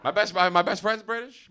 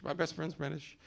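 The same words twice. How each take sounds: First: Said in the usual way. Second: Quiet aside. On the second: Real, not acted. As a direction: repeat "My best friend's British." much softer, as an aside. Repeating the confession under his breath.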